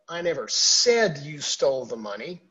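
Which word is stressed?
said. The stress is on the word said.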